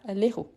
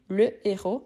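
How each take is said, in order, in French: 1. L'article est élidé et lié au nom. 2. L'article est une syllabe séparée, non liée. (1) "et pas l'héros" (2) "je dis le héros"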